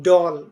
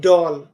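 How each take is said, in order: Both takes have the same delivery.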